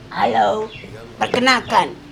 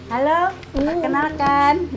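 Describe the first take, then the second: First: It is said in a put-on character voice. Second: It is said in a natural speaking voice. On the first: The speaker is talking as the character. "suaranya beda banget. Yang Maijah" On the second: The speaker is talking as herself. "Ya ini suara aslinya"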